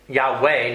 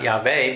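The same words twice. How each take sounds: First: The middle consonant is a W sound. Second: The middle consonant is a V sound. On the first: The speaker calls it right. "it's WWW" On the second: The speaker calls it wrong. "it's not VVV"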